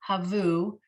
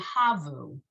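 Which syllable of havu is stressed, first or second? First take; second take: second; first. First: The stress is on the second syllable. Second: The stress is on the first syllable. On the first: "you're saying havu" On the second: "he's just putting more emphasis on the first syllable than the second"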